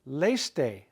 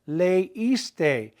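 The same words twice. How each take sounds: First: The E and I blend into one sound. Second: The E and I are heard separately. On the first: The speaker calls it wrong. "we would have that diphthong again. Two vowels making one sound" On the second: The speaker calls it right. "We want to equally hear the E and the I"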